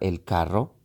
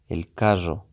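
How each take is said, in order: First: The rr sound is crisp and clearly trilled. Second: The rr sound is slurred and poorly articulated. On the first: It sounds general and not tied to a region. The speaker calls it right. "va a pronunciar de una manera mucho más, llamémoslo elegante" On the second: It reflects a regional way of speaking. The speaker calls it wrong. "si está usted en la región en donde asienta mucho las palabras, ciertas letras, y por no vocalizar bien"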